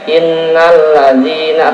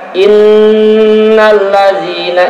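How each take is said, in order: First: The nasal sound is cut short. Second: The nasal sound is held for a long time.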